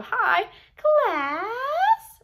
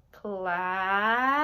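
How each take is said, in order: First: Much higher, louder sing-song "Hi, class"; high silly voice. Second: "Class" stretched long with a rising tune; drawn-out class. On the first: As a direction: greet them in a squeaky cartoon voice. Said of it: "different accents or different voices". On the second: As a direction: draw out "Class" like a roll call. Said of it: "drawing out the word class". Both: Shown as a demonstration.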